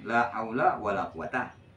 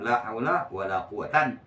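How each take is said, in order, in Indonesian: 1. Kata terakhir berakhir dengan vokal 'a' biasa. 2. Kata terakhir berakhir dengan bunyi 'an'. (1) "Patah macam" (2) "Dan boleh nasab"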